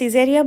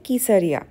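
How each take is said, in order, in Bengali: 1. নামটি s ধ্বনি দিয়ে শুরু হয়। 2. নামটি k ধ্বনি দিয়ে শুরু হয়। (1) "আমরা সিজারিয়া বলছিলাম" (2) "এখানকার উচ্চারণ অনুযায়ী হবে কিসারিয়া"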